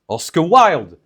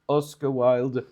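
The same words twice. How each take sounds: First: The last name is stressed more strongly. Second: The first name is stressed more strongly. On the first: The speaker calls it right. "you have to say" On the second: The speaker calls it wrong. "instead of saying"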